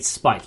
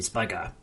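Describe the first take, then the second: First: The name ends on a bare consonant. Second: The name ends with an added vowel. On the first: The speaker calls it wrong. "you don't say Spike" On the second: The speaker calls it right. "in Japanese, you say Spiker"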